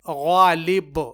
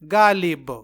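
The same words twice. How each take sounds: First: It starts with a thick sound from the upper throat. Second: It starts with a soft, light plain g sound. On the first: The speaker calls it right. "तो ये गैन से गालिब है" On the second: The speaker calls it wrong. "ना के गालिब"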